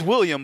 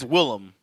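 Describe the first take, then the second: First: The name is said like 'William'. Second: The name is said like 'Willem'. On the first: The speaker calls it wrong. "you think it's William" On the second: The speaker calls it right. "but it's Willem"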